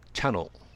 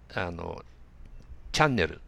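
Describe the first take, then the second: First: It is said with English sounds, like chano. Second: It is said with Japanese katakana syllables. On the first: The speaker calls it right. "耳から聞くとチャノと言います" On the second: The speaker calls it wrong. "8 チャンネルと発音されるかもしれません"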